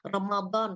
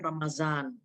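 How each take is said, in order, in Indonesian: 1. Konsonan di tengah itu bunyi mirip d yang tebal. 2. Konsonan di tengah itu bunyi z.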